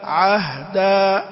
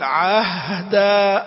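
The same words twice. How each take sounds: First: The h sound is short and plain. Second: The h sound is stretched out unusually long. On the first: The speaker calls it right. "لا تبالغ فيها" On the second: The speaker calls it wrong. "يأتي بها يمطها مط غير عادي"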